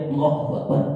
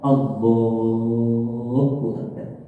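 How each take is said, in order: First: It is said casually, without devotion. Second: It is said solemnly, with devotion.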